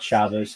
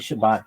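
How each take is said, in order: First: The word ends with an s sound. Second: The word ends with a t sound.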